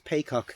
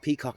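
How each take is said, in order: First: The first syllable rhymes with 'day'. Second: The first syllable rhymes with 'see'. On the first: The speaker calls it right. "it is paycock" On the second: The speaker calls it wrong. "It's not peacock"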